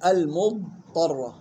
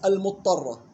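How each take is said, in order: First: Slow المضطرة with a long distinct dad; dad held, unmerged. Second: Quick المضطرة with dad swallowed into ta; common merged misreading. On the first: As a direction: linger on dad in المضطرة before the ta. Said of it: "لا تقلقل ولا تضغم في الطاء". (المضطرة بلا قلقلة ولا إدغام) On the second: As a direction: say المضطرة as "al-muttarra". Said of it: "كيف يقرأها الناس؟". (المضطرة بإدغام الضاد خطأً) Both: Shown as a demonstration.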